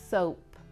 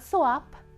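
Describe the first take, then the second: First: The vowel is a single O sound. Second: The vowel is split into two sounds, O then A. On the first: The speaker calls it right. "but soap" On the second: The speaker calls it wrong. "not soap"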